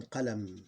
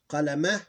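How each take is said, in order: First: "qalam" closing on m; vowel ending ignored. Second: "Qalama" louder, final a sounded; full vowel ending. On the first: Teacher correcting to the pause form, vowel dropped. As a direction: say "qalam" with no final a. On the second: Teacher reading the word as written, vowel pronounced. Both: Shown as a demonstration. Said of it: "You ignore the vowel".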